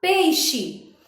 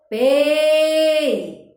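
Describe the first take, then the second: First: Said in the usual way. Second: "Pei" with a long, loud E and brief final I; stressed vowel stretched. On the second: Shown as a demonstration. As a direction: hold the E of "Pei", then drop onto the I. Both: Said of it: "Maior tonicidade".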